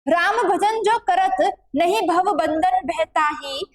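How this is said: The pause comes after the word karat.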